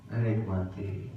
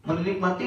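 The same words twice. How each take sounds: First: Menikmati drawn out slowly and lower; savoring. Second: Said in the usual way. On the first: Shown as a demonstration. Preacher showing congregation how to savor dhikr, slow and soft. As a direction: linger over menikmati softly.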